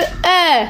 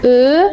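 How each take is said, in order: First: The vowel is open, with the mouth opened. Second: The vowel is closed, with small rounded lips. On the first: "on ouvre la bouche" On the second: "ça fait juste un petit rond"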